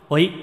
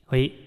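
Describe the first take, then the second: First: The voice has a moderate amount of reverb. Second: The voice has only a little reverb. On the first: "我现在就是在中间" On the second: "可以调小一点"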